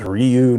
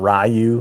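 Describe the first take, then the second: First: The name begins with a 'ree' sound. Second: The name begins with a 'rye' sound. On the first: The speaker calls it right. "it was always Ryu" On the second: The speaker calls it wrong. "not Ryu"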